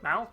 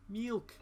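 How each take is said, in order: First: The vowel is an open 'ah' sound. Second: The vowel is a short 'ih' sound. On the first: The speaker calls it wrong. "he used to pronounce it Malk" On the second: The speaker calls it right. "it's milk"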